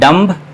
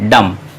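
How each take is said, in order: First: The word ends with an audible b sound. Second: The word ends with no b sound. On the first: The speaker calls it wrong. "ये गलत pronunciation है" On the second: The speaker calls it right. "बी silent है"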